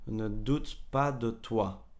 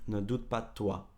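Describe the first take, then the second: First: It is said slowly with every sound clear. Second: It is said fast with sounds dropped together.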